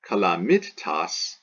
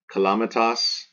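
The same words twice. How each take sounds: First: "calamitas" slowed, with a held double t, ca-la-MIT-tas; "calamitas" as if spelt with two t's, weight on MIT. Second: "calamitas" with a quick short mi and one t; "calamitas" stressed on LA, short third syllable; short penult. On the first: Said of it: "If it were two T's here". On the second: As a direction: say "calamitas" as ca-LA-mi-tas, mi kept light. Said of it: "this is short". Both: Shown as a demonstration.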